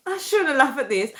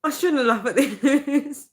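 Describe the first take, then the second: First: Said in the usual way. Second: Half laughing through the words, pitch up; trying not to giggle at her own joke. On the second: Real, not acted. Vlogger scolding herself, laughing.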